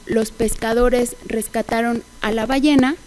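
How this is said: The main stress falls on the last word. The speaker calls it right. "la prominencia ... recae sobre el acento de la última palabra del enunciado"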